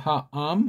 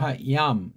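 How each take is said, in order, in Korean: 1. 두 번째 음절은 y 활음 없이 시작해요. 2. 두 번째 음절은 y 활음으로 시작해요. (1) "이렇게 하면 돼" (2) "서양들 하얌, 얌이 아니에요"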